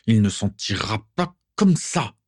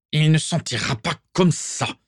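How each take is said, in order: First: Nasal, resentful repeat of the threat; same father repeating his threat, nasal and sour; nasal disagreeable father. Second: Higher, nasal, disagreeable grumble; angry father grumbling upstairs about his son, nasal; nasal muttering father. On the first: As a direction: grind the threat out again. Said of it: "la voix nasillarde et désagréable de son père". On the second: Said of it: "marmonna soudain la voix nasillarde". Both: A narrator's reading.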